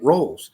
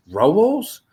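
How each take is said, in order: First: Said in the usual way. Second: Rolls pitched high and rising, louder; baffled list reader. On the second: Retold or imitated. Housemate reciting the misspelt list, baffled question on rolls. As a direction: query rolls loudly, stretched upward in disbelief. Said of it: "I hear someone reciting the fucking list".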